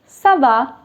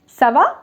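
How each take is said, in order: First: The pitch falls at the end. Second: The pitch rises at the end. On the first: It gives an answer. "And the answer is" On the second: It asks a question. "That's a question"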